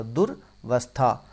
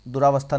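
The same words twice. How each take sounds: First: दुर्वस्था slowly, pause after दुर; correct form, broken up. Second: Said in the usual way. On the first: Shown as a demonstration. Teacher correcting a common mistake for students, slowly broken up. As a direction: split दुर्वस्था into दुर and वस्था, drawn out. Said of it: "दुरावस्था नहीं होता". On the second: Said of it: "नहीं होता".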